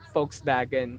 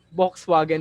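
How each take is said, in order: First: The W is said like a V. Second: The W is said like an English W. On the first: This is how it is read in other countries. "sa iba, ang basa nila doon" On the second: This is how it is read locally. "parang yung Volkswagen basa natin"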